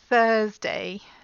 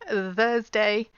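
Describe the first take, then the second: First: The th is unvoiced, with only air. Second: The th is voiced, with throat vibration. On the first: The speaker calls it right. "the unvoiced sound" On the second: The speaker calls it wrong. "that's the voice sound"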